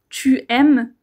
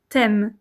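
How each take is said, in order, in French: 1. La voyelle de tu se prononce entièrement. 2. La voyelle de tu tombe et se lie au mot suivant. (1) "Tu aimes est plus formel" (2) "t'aimes est plutôt informel"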